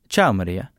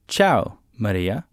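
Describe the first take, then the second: First: It is spoken at a natural, faster pace. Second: It is spoken very slowly. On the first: "The next time we'll do it at a more natural pace" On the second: "The first time we'll do it extra slowly"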